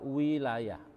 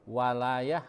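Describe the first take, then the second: First: The first vowel is a closed i sound. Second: The first vowel is an open a sound. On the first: It means sovereignty or rule. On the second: It means help or support.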